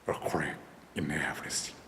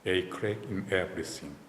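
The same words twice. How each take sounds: First: The voice is put on, very deep and low. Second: The voice is at its ordinary natural pitch.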